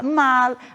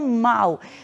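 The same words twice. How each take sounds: First: The final L is a clear L sound. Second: The final L sounds like a U vowel. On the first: The speaker calls it right. "Sempre será mal" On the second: The speaker calls it wrong. "e não mal"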